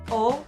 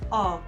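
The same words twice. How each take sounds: First: The vowel is a closed, crisp O. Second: The vowel is an open O leaning toward A. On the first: The speaker calls it wrong. "No es O" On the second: The speaker calls it right. "es como una O más abierta, como una terminación en A"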